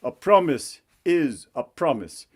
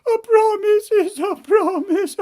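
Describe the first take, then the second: First: Stern king. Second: High falsetto whine dissolving into mock sobs; sobbing princess. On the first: Acted. King holds princess to her word, stern king voice. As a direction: lay down the law as the royal father. King lectures his daughter. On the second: Princess repeats mother's ruling, mock-sobbing princess voice. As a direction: wail it as a defeated spoiled princess.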